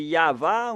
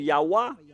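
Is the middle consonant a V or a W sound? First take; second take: V; W. First: The middle consonant is a V sound. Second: The middle consonant is a W sound. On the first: The speaker calls it right. "la bonne prononciation de la lettre Vav, c'est V" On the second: The speaker calls it wrong. "on a précisé le W"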